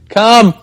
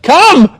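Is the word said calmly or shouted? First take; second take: calm; shouted. First: The word is said calmly, not shouted. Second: The word is shouted loudly. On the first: The speaker calls it right. "It was" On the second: The speaker calls it wrong. "I didn't yell like"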